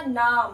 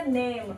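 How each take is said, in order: First: "नाम" with a long ah, the mistaken reading; wrong reading. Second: "नेम" with a long ay, the right way; correct reading. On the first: Teacher showing the wrong reading "नाम". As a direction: say it the wrong way as naam. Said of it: "अगर हम इसको अ पढ़ते तो क्या बनता". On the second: Teacher giving the correct reading "नेम". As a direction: say it correctly as naym. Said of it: "तो ये क्या बन गया". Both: Shown as a demonstration.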